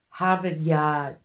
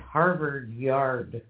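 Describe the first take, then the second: First: The R sounds are softened and dropped. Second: The R sounds are fully and hard pronounced. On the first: This is how the other group says it. "It's a soft" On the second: This is how the speaker's own group says it. "Where for us it's Harvard Yard"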